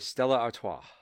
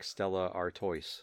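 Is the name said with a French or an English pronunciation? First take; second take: French; English. First: The name is said with a French-style pronunciation. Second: The name is said with a plain English pronunciation. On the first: The speaker calls it right. "And you have to say it like that" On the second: The speaker calls it wrong. "Or else it's like Stella Artois. And then it doesn't taste as good"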